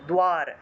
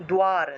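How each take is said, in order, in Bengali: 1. d-এর পরে w ধ্বনি আছে। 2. d-এর পরে w ধ্বনি আছে।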